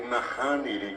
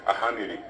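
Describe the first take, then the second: First: The word begins with an n sound. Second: The word begins with a vowel, n dropped. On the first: The speaker calls it right. "que es la forma correcta" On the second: The speaker calls it wrong. "decimos ahaniri"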